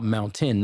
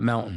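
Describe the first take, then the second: First: The middle t is pronounced fully and clearly. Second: The middle t is swallowed or dropped. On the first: The speaker calls it right. "pronounce every single syllable and every every letter" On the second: The speaker calls it wrong. "not mountain"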